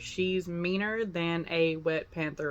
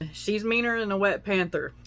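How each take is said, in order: First: The sentence is spoken more slowly. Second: The sentence is spoken at normal speed.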